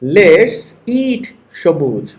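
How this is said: There is a pause before the name. The friend is being invited to eat. "চলো খাই বলার পর তুমি থামছো, এরপরে বলছো সবুজ"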